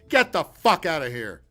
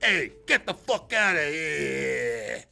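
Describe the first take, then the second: First: It is said in the speaker's plain accent. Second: It is said in a put-on New York accent.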